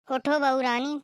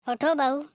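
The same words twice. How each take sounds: First: उठो बहू रानी with a rising sing-song; mock-sweet call. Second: Sharp call. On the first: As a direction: coax her with a sarcastic rani. Calling again, sweetly mocking. (व्यंग्य से मीठी पुकार) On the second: Acted. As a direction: bark उठो बहू at the door. Calling the bride. (उठो पर ज़ोर देकर पुकारना)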